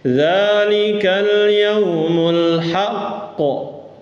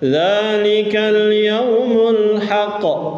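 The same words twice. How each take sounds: First: The q is doubled and pressed with force. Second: The q is said once, quickly, without pressure. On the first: "Maka ada nabr. ... Ada tasdidnya ya dibaca" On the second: "Kalau enggak ada tasdid baca gimana?"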